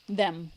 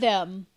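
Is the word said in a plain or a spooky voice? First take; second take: spooky; plain. First: The word is said in an eerie, ominous voice. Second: The word is said in an ordinary plain voice. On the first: "Like a horror movie" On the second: "Not them"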